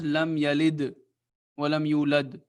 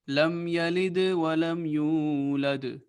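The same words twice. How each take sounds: First: The final d sounds stop flat without a bounce. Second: The final d sounds bounce with a slight echo. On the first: The speaker calls it wrong. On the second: The speaker calls it right.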